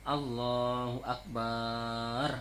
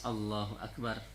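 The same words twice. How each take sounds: First: The vowel after 'b' in Akbar is long. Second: The vowel after 'b' in Akbar is short. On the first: The speaker calls it wrong. "nggak boleh baknya panjang juga, nggak sah" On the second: The speaker calls it right. "Harus Allahu Akbar karena pendek"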